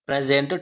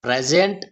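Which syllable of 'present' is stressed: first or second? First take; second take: first; second. First: The stress is on the first syllable. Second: The stress is on the second syllable. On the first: It is a noun meaning the current time. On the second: It is a verb meaning to give.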